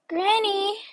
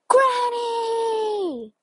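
First: It is said at normal volume. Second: It is shouted loudly.

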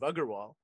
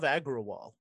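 First: The name is said with a 'gur' sound. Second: The name is said with a clear 'gra' sound. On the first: The name is said the way it is meant to be. "even though it's pronounced GUR" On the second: The name is adapted to suit English speakers. "which I've been saying forever"

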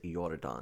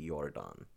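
First: The name begins with an English J sound. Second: The name begins with a breathy H sound. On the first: The speaker calls it wrong. "I think I'm pronouncing it wrong" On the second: The speaker calls it right. "in Spanish, the J is Ia... I think it's probably Jordán"

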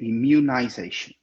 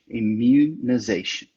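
First: The word has a British pronunciation. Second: The word has an American pronunciation. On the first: "Mas a pronúncia britânica é immunization" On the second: "isso está mais próximo da pronúncia americana mesmo, que é immunization"

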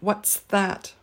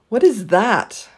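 First: What and is merge into what's, ending in ts. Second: What and is are said as separate words.

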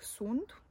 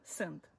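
First: The vowel is a rounded u sound. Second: The vowel is a central î sound. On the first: "scriu și citesc sunt" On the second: "pronunță cu I și scriu cu U"

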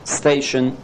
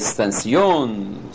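First: The stress is on the first syllable. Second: The stress is on the last syllable. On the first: "the stress in English is always on the first syllable" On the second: "it would be towards the end, the last syllable"

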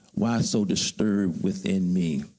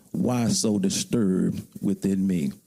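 The two takes are said the same way.

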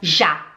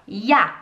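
First: The word starts with a Portuguese J sound. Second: The word starts with a German J sound. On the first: The speaker calls it wrong. "a gente não fala já" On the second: The speaker calls it right. "A gente fala ja, porque é o J"

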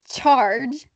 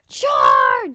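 First: It is said plainly, without suspense. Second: It is said dramatically, with suspense.

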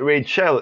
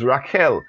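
First: The name is said with the usual English pronunciation. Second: The name is said with its original non-English pronunciation. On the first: "We pronounce it Rachel in English" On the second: "but the name actually is Rachel"

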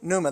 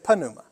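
First: The word starts with an n sound, P silent. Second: The word starts with an audible p sound. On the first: "They don't say pneuma" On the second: "they leave the P"

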